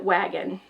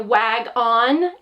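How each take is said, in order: First: The second syllable has a reduced 'uh' vowel. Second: The second syllable has a full 'on' vowel. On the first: It is the everyday way the word is said. "we usually say that with a schwa sound" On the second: It helps show how the word is spelled. "Sometimes I'll use my teacher voice"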